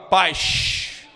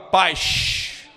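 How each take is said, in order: First: It is said in a Rio de Janeiro accent. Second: The same.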